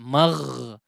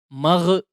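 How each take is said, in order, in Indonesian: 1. Bunyi gh mengalir terus dengan aliran udara. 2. Bunyi gh berakhir dengan lepasan yang memantul. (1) "Dia masih ada aliran suara atau aliran udaranya" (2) "Atau dipantulkan, ini juga kurang tepat ya"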